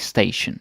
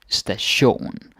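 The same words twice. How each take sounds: First: The stress is on the first syllable. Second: The stress is on the last syllable. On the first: The speaker calls it wrong. "do pay attention so you don't say station, like, like station" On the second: The speaker calls it right. "ending with ion, like station, then you put the stress there"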